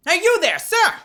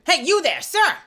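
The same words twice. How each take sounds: First: Higher, louder guard calling out, a bit like Gumshoe. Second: Generic guard call. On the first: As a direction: hail the stranger like Detective Gumshoe. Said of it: "That's kind of Gumshoe". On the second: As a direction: call out like any guard on duty. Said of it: "Let's just try a generic guard". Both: Acted.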